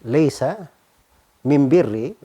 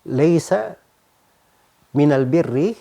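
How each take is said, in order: First: The article is pronounced with an M sound. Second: The article is pronounced with an L sound. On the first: Some Arabs use this dialect form of the article. "alif mim ya, bukan alif lam" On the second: This is the standard article form. "alif lam"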